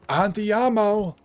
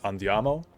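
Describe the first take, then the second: First: It is said with a heavy American accent. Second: It is said with a native Italian accent. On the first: The speaker calls it wrong. "she would pronounce it like andiamo" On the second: The speaker calls it right. "in Italian is andiamo"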